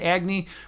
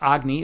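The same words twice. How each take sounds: First: It is said with a Western pronunciation. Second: It is said with an Eastern pronunciation.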